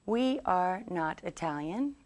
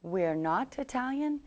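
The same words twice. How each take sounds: First: "We are" as two full, separate words; uncontracted long form. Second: "We're" run together, higher pitched; contracted short form. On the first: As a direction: say "We are" in full, each word distinct. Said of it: "is way too long". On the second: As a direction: contract "We are" into a single "We're". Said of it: "so we could say". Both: Shown as a demonstration.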